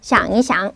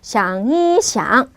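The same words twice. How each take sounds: First: The middle syllable is light and toneless. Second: The middle syllable has a clear high level tone. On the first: The speaker calls it right. "가볍게 경성을 읽어주시면 됩니다" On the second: The speaker calls it wrong. "일성을 또 이게 확실하게 하신다 해서 샹이샹 이러실 필요는 없습니다"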